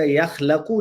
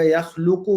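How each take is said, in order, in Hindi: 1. kh के बाद वाला स्वर a है। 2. kh के बाद वाला स्वर u है। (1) "यख़लक़ु नहीं बनेगा" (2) "यख़लुक़ु बनेगा"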